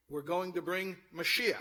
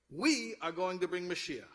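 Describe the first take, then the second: First: "Mashiach" set off and lifted high and loud at the end; emphatic declaration landing on "Mashiach"; stress on Mashiach. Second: "We" punched high and loud, then falling away; emphatic high "We", the rest stepping down; stress on We. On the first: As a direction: build up to a strong, rising "Mashiach". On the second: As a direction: hit "We" hard at the start. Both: Shown as a demonstration. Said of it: "Both ways".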